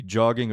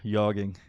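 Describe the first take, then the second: First: "jogging" with a hard J sound; hard English J. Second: "yogging" opening on a Y sound; soft J. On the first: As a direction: say "jogging" with J as in jam. Offering two readings of J. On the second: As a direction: soften the J of jogging to Y, "yogging". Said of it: "Might be a soft J". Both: Shown as a demonstration.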